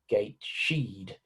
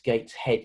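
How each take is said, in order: First: The middle has a blended SH sound. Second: The middle has a separate breathy H sound. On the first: The speaker calls it wrong. "rather than the Sh sound" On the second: The speaker calls it right. "because of the aspirated H, the H sound"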